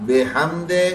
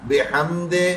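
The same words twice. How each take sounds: No difference in how they are said.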